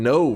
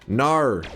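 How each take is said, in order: First: The word is said in a plain accent. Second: The word is said in an Australian accent. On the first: The speaker calls it right. "I'm saying it right" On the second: The speaker calls it wrong. "Australia, they got even no wrong"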